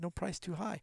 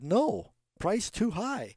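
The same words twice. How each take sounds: First: It runs on with no pause after no. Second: There is a pause after no.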